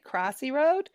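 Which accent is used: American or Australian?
American. It is said in an American-style accent. This way people in the States understand it. "that way people understand me"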